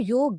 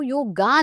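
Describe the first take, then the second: First: The word ends on the consonant, no final vowel. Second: The word ends with an added final 'a' vowel. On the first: The speaker calls it right. "योग हो सकता है" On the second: The speaker calls it wrong. "वो योगा नहीं हो सकता। That is absolutely wrong."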